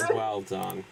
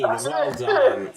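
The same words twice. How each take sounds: First: Said in the usual way. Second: Loud, high well done; excited praise. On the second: Real, not acted. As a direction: cheer them on.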